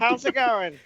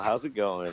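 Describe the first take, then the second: First: It is said in the Clarence character voice. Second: It is said in his own natural voice.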